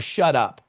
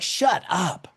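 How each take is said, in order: First: It is a stern order to be quiet. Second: It is a playful, shoving exclamation of disbelief.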